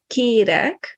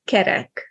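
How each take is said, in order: First: Kérek with a long, close first vowel. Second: Kerek with two short open e vowels. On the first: Teacher gives minimal pair example, long é. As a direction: stretch the é in kérek, like "kay-rek". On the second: Teacher gives minimal pair example, short e. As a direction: keep both vowels of kerek short, as in "ket". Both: Shown as a demonstration. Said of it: "difference between e and e".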